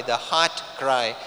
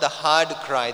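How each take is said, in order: First: "heart" ending in a crisp T; contrasted HEART. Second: "hard" ending in a voiced D; contrasted HARD. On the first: Preacher correcting to the intended word, "heart" enunciated distinctly. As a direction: say "heart" distinctly, with a clear final T. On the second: Preacher ruling out a misheard word, "hard" enunciated distinctly. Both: Shown as a demonstration. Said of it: "not the hard cry".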